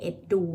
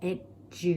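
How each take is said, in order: First: Edu contrasted, first wrong then right. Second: Edu said the correct way; correct version. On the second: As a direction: say edu the right way. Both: Shown as a demonstration. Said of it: "มันไม่ใช่ edu นะ แต่มันเป็น edu".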